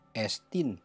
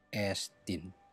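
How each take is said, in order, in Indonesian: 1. Nada naik pada suku kata bertekanan. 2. Nada turun pada suku kata bertekanan. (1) "Bukan estin" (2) "Graph ini pembacaannya turun"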